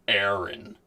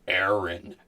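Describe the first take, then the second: Both takes have the same delivery.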